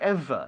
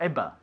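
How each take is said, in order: First: The middle consonant is a 'v' sound. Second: The middle consonant is a 'b' sound. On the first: The speaker calls it right. "con V, ... como un, un F" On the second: The speaker calls it wrong. "not ever"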